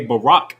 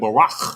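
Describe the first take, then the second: First: The word ends with a hard k sound. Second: The word ends with a raspy ch sound. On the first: It means bless. The speaker calls it wrong. "you're saying bless" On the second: It means flee. The speaker calls it right. "with a cha at the end, not a ka"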